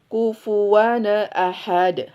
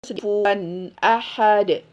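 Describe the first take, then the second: First: The n bounces into an added vowel before ahad. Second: The n is held cleanly with no added vowel. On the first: The speaker calls it wrong. "kesalahan izhar itu suka mantul" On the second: The speaker calls it right.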